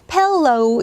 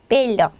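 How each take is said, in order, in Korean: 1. L은 영어 방식으로 발음해요. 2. L은 한국어 리을처럼 발음해요. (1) "펠로 이렇게 이제 발음해 주시지 마시고" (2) "그냥 한국어식 발음으로"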